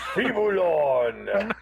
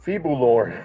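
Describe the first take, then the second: First: The name is said in a booming, dramatic voice. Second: The name is said in a plain voice.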